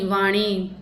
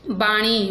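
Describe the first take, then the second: First: वाणी starting with "v"; v sound. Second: बाणी starting with "b"; b sound. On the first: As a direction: open वाणी on a v, not b. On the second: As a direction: close the lips for the b of बाणी. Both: Shown as a demonstration. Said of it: "बै और वै".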